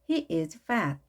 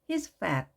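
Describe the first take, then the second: First: The verb is said as a full separate word. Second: The verb is contracted onto the pronoun.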